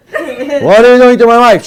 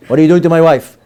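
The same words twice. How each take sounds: First: Louder, higher laughing demand; hammed-up jealous husband; mock angry husband. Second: Said in the usual way. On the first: Angry husband confronting the rabbi, mock loud demand.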